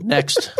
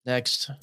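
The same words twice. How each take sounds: First: High, rising exasperated next; emphatic next. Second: Soft, flat dismissive next; quiet dismissal. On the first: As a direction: call it out, fed up. Brushing off the teasing again. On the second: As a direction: mutter it, done with the joke. Brushing off the accent joke. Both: Real, not acted.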